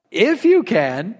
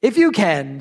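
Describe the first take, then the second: First: "If you can" drawn out slowly, rising at the end; slow, questioning "If you can"; incredulous echo. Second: Said in the usual way. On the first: Retold or imitated. Repeats the words as incredulous Jesus.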